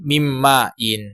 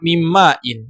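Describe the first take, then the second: First: It is said with the final -in ending. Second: It is said without the final -in ending. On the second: "tanpa harokat dibaca"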